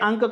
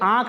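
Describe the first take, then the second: First: A short vowel is followed by an n sound. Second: A long vowel is nasalized with no separate n. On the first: The speaker calls it wrong. "आप कह रहे हैं अंक" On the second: The speaker calls it right. "आँख आपको कहना है"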